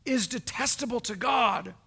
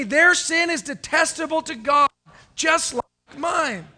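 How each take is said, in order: First: Said in the usual way. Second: Louder repeat, with just like mine slowed; congregation echo. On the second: Real, not acted. Preacher leads the church in a loud call-and-response. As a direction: say it back loud with the crowd. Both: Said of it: "Would you say that with me?".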